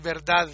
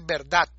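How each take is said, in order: First: The word ends with a soft interdental d. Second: The word ends with a hard t sound. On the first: The speaker calls it right. "si uno la pronuncia bien" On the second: The speaker calls it wrong. "fonéticamente ponen una T al final"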